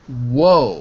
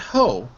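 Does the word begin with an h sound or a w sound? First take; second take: w sound; h sound. First: The word begins with a w sound. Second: The word begins with an h sound. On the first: The speaker calls it right. "with a w" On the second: The speaker calls it wrong. "It's not ho"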